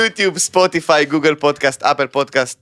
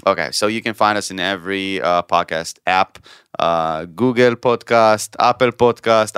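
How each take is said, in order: First: Quick list in an Israeli accent. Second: Slow English in an Israeli accent. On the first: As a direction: rattle off the apps Israeli-style. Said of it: "I'll do it in, in Israeli accent". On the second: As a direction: read the app names with an Israeli accent. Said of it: "in Israeli accent". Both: Shown as a demonstration.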